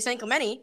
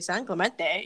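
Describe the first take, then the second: First: The name is said the way locals say it. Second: The name is said the way outsiders say it. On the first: The speaker is from the town or has been there. The speaker calls it right. "If they say San Clemente, I know they're from San Clemente or they've really been there" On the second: The speaker has never been to the town. The speaker calls it wrong. "But if they say San Clemente, you're like, all right, well"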